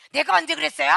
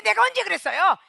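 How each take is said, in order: First: Louder indignant denial with stress on 언제; defensive outburst stressing 언제. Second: Higher, louder plea with a rising end on 그랬어요; escalating indignant denial; whiny defensive denial. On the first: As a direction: push back, insisting on 언제. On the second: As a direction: protest innocence, 언제 pushed up high. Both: Retold or imitated. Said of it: "이러고 변명이 나오기 시작한다".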